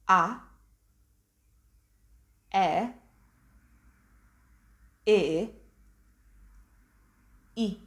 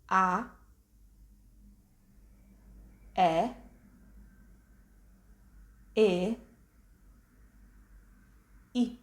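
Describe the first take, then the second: First: The vowels are said at a quicker pace. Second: The vowels are said at a slower pace.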